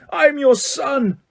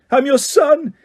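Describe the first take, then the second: First: Very high, slow pleading wail; drawn-out anguish. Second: Very high, loud anguished cry; screamed. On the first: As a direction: stretch it out in despair. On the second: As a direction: scream up at your father. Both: A narrator's reading. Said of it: "he screamed up at Crouch".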